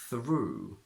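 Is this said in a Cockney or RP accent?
RP. The oo is a pure long vowel.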